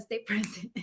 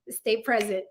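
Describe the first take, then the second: First: Quiet chuckling repeat of her own motto; laughing. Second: Said in the usual way. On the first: Shown as a demonstration. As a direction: stay present said softly through a laugh. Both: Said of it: "That's what I always tell myself".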